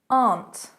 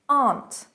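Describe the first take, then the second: First: The vowel is a long open ah. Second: The same.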